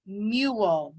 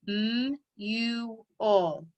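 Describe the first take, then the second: First: Said in the usual way. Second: Mule broken into slow separate sounds, "M U L"; sounded out. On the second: Shown as a demonstration. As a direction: tap out "M U L" sound by sound, drawn out. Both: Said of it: "tap it out".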